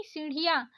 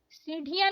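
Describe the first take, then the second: First: सीढ़ियाँ with aspirated flap ढ़; correct flapped ढ़. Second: सीढ़ियाँ with stopped ढ; wrong hard ढ. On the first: Teacher correcting learners, flapped सीढ़ियाँ. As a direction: flick the ढ़ in सीढ़ियाँ. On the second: Teacher showing learners the mistake, hard सीढ़ियाँ. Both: Shown as a demonstration. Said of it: "नहीं".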